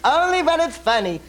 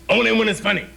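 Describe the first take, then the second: First: It is said in a put-on character voice. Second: It is said in a plain natural voice. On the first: The speaker calls it right. "I had to remember to do the right voice" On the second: The speaker calls it wrong. "Oh, that's not it"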